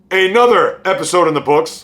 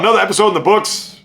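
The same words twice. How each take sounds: First: The phrase is said slowly and clearly enunciated. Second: The phrase is said quickly and a bit rushed. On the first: The speaker calls it right. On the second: The speaker calls it wrong.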